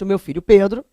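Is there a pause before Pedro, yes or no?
no. There is no pause before Pedro.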